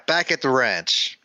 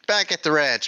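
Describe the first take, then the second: First: Slow, weighty "Back at the ranch"; "Back at the ranch" slow, each word given weight; dramatic announcement. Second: Said in the usual way. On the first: Shown as a demonstration. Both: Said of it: "let's use this, this thing now".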